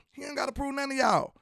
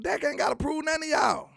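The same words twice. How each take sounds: First: Said in the usual way. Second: High, emphatic shout on none; heated shout. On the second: Real, not acted. Heated defense of Dak.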